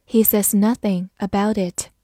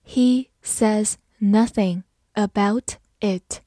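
First: Said in the usual way. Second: Slow, one word at a time; slow reading. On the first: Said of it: "慢慢来读". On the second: Shown as a demonstration. Teacher leads learners through the example sentence, slowly. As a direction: read it slowly with gaps between words. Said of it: "好，慢慢来读".

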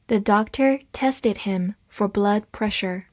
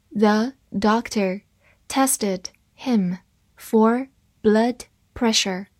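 First: Said in the usual way. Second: Slow, word by word read of "The doctor tested him for blood pressure". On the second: Shown as a demonstration. Teacher reads slowly for students, deliberate. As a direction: read it slowly for learners to follow. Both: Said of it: "好，慢慢来读。".

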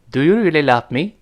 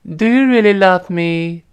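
First: Said in the usual way. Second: High, slow, cutesy pleading question; coquettish. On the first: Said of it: "我们分别体会一下". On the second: Shown as a demonstration. Teacher demonstrates asking while acting cute, coquettish. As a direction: coo it coyly, drawing out the end. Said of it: "撒娇的时候也能这么说".

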